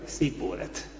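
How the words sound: It is said in the Ephraimite way. The speaker is an enemy fugitive. The speaker calls it wrong. "azt mondták, hogy"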